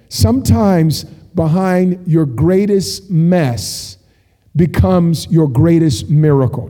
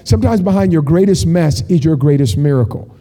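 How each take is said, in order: First: Very slow, weighty phrases with pauses; slow and deliberate. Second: Said in the usual way. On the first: Real, not acted. Preacher sharing what God wants to say, slow and deliberate. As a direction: spell out the key message phrase by phrase. Key line, then restated after checking.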